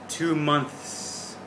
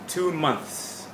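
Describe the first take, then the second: First: The two words are joined together smoothly. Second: The two words are joined and said faster. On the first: "now let's put it together a little bit more" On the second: "Move it up a little bit in speed"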